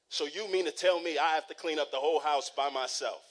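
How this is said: It sounds annoyed and defiant, with teeth sucking.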